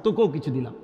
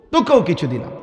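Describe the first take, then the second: First: Very soft, low voice; hushed granting. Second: Said in the usual way. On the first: Acted. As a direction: grant it gently, almost under the breath. God softly grants the plea. (খুব নিচু, নরম স্বরে)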